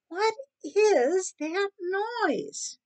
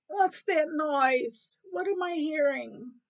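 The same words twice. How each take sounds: First: High, very drawn-out demand; irritated woken cat. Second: Slow, higher-pitched puzzled cat; lightly voiced cat, drawn out and higher; cat woken up. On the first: Acted. Cat woken by gnawing, exasperated. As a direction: stretch each word in a higher cat voice. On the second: Woken cat asks about a noise, puzzled.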